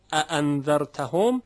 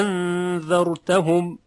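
First: اانذرتهم with two short separate a onsets; short double hamza opening of اانذرتهم; both hamzas sounded. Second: انذرتهم opening on a very long drawn-out aa; second hamza becomes a stretched alef in انذرتهم. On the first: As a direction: keep both first vowels of اانذرتهم short and caught. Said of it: "همزهٔ دوم رو ورش". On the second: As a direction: hold the first vowel of انذرتهم long, then recite slowly. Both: Shown as a demonstration.

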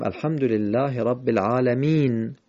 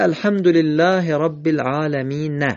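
First: "العالمین" closed on n, alamin; stopped on sukun. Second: "العالمین" ending on an added short a, alamina; higher-pitched "العالمین" with its end vowel pronounced; final vowel voiced. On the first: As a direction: end "العالمین" on a plain n with no vowel after it. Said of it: "ولی باید بخونیم". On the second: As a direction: sound the written fatha on the last ن of "العالمین". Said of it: "نوشته". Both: Shown as a demonstration.

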